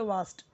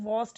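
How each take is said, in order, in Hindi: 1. यह स्वर खुला, बिना गोलाई वाला 'ah' ध्वनि है। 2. यह स्वर गोल 'aw' ध्वनि है। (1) "इसको हम पढ़ेंगे वास्ट" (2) "इसे हम वॉस्ट नहीं पढ़ेंगे"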